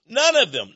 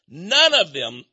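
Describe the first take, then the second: First: None of them higher and louder, falling hard; stress on none. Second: NONE said louder as a firm start; stress on none. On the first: Preacher repeating his point, None punched higher. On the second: Preacher stressing the Khazar claim, none louder. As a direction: lean on the word None. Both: Real, not acted.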